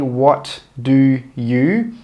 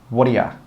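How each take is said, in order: First: Each word is said separately and fully. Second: The words are joined, with 'you' reduced. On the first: The speaker calls it wrong. "We don't say what do you" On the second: The speaker calls it right. "we join those three words together and we say"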